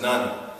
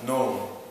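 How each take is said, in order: First: The vowel is short, like in 'nun'. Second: The vowel is a long O, like 'known'. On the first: The speaker calls it wrong. "it's not pronounced as none" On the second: The speaker calls it right. "it's pronounced as known"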